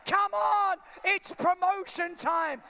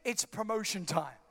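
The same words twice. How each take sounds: First: "promotion time" shouted high and loud, slow; shouted declaration. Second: Said in the usual way. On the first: Shown as a demonstration. Preacher models the words for the church, shouted high and slow. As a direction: belt out "it's promotion time". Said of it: "You just gotta say". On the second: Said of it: "you just need to say".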